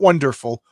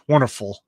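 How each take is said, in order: First: The middle is said 'wonder', with a d sound. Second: The middle is said 'wunner', with no d sound. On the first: "not wonderful" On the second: "He spells it W U N N E R"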